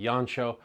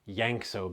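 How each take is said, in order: First: The name is pronounced the Hungarian way. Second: The name is pronounced following its spelling. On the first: "The Hungarian pronunciation would be Jancsó" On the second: "sometimes you'll hear his name pronounced Yankso because of the spelling"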